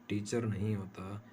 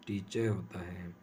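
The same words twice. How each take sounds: First: टीचर with a sounded final r; wrong pronunciation. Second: टीचर as teechuh, r dropped; non-rhotic pronunciation. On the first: Teacher showing students the mistaken form, r pronounced. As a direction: say टीचर ending on a clear r. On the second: Teacher giving the correct form to students, r silent. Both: Shown as a demonstration. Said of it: "आर को pronounce नहीं किया जाता".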